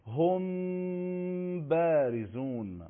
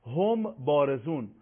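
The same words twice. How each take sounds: First: «هم بارزون» with a very long level hum before the b; hidden mim. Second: Said in the usual way. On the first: Shown as a demonstration. Teacher demonstrating ikhfa, long nasal mim before ba. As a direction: draw out the m of «هم», lips lightly closed, then release «بارزون».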